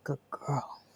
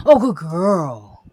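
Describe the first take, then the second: First: Softer, tender repeat of praise. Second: Slow, loud, drawn-out praise. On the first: Owner softly praising her dog Cora. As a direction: murmur it gently to the dog. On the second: Owner praising her dog Cora loudly and slowly. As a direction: gush over the dog. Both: Real, not acted.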